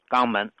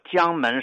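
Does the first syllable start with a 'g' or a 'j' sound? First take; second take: g; j. First: The first syllable starts with a 'g' sound. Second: The first syllable starts with a 'j' sound. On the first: "当地的方言呢把它读成叫肛门" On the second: "广东省有一个城市叫江门市"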